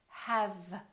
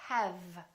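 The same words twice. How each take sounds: Both takes have the same delivery.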